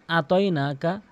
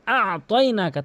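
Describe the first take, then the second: First: আতয়নাকা with a plain open আ, no throat sound; ভুল উচ্চারণ. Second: আতয়নাকা opening on a mid-throat আ; correct ayn. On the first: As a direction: say আতয়নাকা with the first আ left light and short. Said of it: "তাহলে ভুল অর্থ হবে". (আতয়নাকা-র আ হালকা, আইন ছাড়া) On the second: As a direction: squeeze the আ of আতয়নাকা from the middle of the throat. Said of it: "তাহলে সঠিক অর্থ দাঁড়াবে আতয়নাকা". (আতয়নাকা-র আ হলকের মাঝখান থেকে) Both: Shown as a demonstration.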